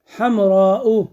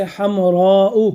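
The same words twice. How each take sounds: First: Said in the usual way. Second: हमराउ drawn out slowly, syllable by syllable; slow example word. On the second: Shown as a demonstration. Teacher to class, pronouncing the example slowly. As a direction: lay out हमराउ slowly for the students. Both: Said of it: "जैसे हमराउ".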